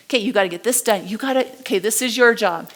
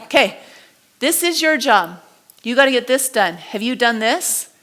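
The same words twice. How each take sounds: First: Curt, rushed orders; bossy manager, palm down. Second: Manager, palm up. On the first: Manager barking tasks at employees, fast and curt. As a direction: fire off the orders like a boss who doesn't listen. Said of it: "it was like this". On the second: The same manager talking to staff, now inviting and open. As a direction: ask it like you're offering help. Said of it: "He's like". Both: Retold or imitated.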